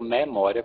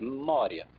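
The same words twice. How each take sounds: First: The e is open, with a single m. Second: The m is held long, like a double m. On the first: "com E aberto no Nordeste" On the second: "em Portugal também existem consoantes duplas ... com dois M's"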